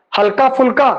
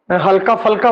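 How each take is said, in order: First: ਫੁਲਕਾ with a short u after ph; correct vowel. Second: ਫਲਕਾ with a in place of u; lower-pitched slip, "phal" in ਫਲਕਾ; wrong vowel. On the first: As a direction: say ਫੁਲਕਾ with a clear "phul". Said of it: "ਹਲਕਾ ਫਲਕਾ ਬੋਲ ਦੇਣਾ". (ਸ਼ੁੱਧ ਉਚਾਰਨ, ਫੁਲਕਾ ਵਿੱਚ ਔਂਕੜ) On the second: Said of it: "ਬੋਲ ਦੇਣਾ ਬਈ". (ਗਲਤ ਉਚਾਰਨ, ਫਲਕਾ ਬਿਨਾਂ ਔਂਕੜ) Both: Shown as a demonstration.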